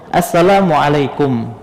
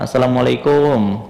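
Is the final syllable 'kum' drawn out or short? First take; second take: short; drawn out. First: The final syllable kum is said short. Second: The final syllable kum is drawn out long. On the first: The speaker calls it right. "Nah itu yang betul bacaannya" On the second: The speaker calls it wrong. "terkadang dipanjangkan"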